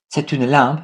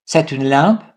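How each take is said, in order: First: Said in the usual way. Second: "C'est une lampe" rising on "lampe"; question intonation. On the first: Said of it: "this sentence". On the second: Shown as a demonstration. French teacher sums up intonation questions, "lampe" rising at the end. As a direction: make it a question just by lifting "lampe". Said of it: "By intonation".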